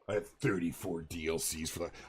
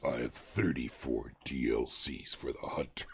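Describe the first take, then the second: First: It is read in his normal voice. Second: It is read in a deep voice.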